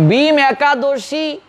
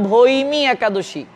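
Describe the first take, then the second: First: ভীম একাদশী with a long ee in ভীম, drawn out slowly; common form ভীম. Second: ভৈমী একাদশী with diphthong "bhoi" then "mee"; correct pronunciation ভৈমী. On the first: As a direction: say ভীম as one syllable, "bheem", slowly. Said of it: "অনেকেই বলেন". (ভীম-এ দীর্ঘ ঈ, টেনে ধীরে উচ্চারণ) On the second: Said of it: "এটার শুদ্ধ উচ্চারণ". (ভৈমী, ভৈ-তে ঐ-কার স্পষ্ট উচ্চারণ) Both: Shown as a demonstration.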